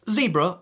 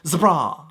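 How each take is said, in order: First: It is said in an American way. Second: It is said in a British way. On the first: "what you'd say in America" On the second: "in the U K you'd pronounce zebra"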